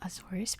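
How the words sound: It is said with a Portuguese pronunciation. "that's the Portuguese pronunciation"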